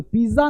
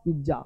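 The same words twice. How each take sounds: First: पिज़्ज़ा said with a plain s, as piza; wrong pronunciation. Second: पिज़्ज़ा said softly with a dz in the middle, pidza; correct pronunciation. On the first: Teacher showing students the wrong पिज़्ज़ा. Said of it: "पिज़्ज़ा नहीं होता". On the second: Teacher showing students the correct पिज़्ज़ा. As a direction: give पिज़्ज़ा its dz sound quietly. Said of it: "ये है ज़". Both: Shown as a demonstration.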